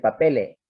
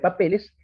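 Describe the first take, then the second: First: The final s is dropped, the vowel lengthened. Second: The final s is pronounced clearly. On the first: "el andaluz dice papele" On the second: "En lugar de papeles"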